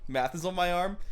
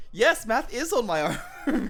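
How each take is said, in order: First: Said in the usual way. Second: Higher, with IS punched and a laugh; amused, emphatic yes with weight on IS; emphatic confirmation. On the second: Real, not acted. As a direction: stress IS, laughing through the answer. Confirms what was read out.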